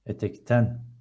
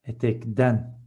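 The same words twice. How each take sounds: First: The suffix begins with a voiceless t sound. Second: The suffix begins with a voiced d sound. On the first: The speaker calls it right. "K is a voiceless consonant, so it's going to be" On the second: The speaker calls it wrong. "I want to say from skirt"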